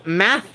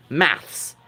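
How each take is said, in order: First: "math" drawn out, ending on th; North American pronunciation. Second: "maths" slowly, s after the th; British pronunciation. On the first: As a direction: say "math" slowly with no final s. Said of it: "is how, like, North Americans say it". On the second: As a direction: end "maths" on a clear ths. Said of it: "the British say it maths". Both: Shown as a demonstration.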